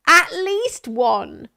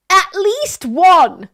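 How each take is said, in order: First: Slower, stretched mock emphasis on ONE; "At least one!" repeated, stretched out slowly; mocking echo. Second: Slow, loud stress on ONE; "At least one!" drawn out, louder and higher; mocking emphasis. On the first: Echoing the scoff at one complaint. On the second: Scoffing at one complaint, slow and loud.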